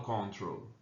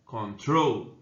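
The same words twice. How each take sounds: First: Control said with the weight on the first syllable, CON-trol; wrong stress. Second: Control with the stress on the final syllable, con-TROL; stress on last syllable. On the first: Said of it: "Eu não falo control". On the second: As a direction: land firmly on TROL in Control. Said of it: "A sílaba forte é a última". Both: Shown as a demonstration.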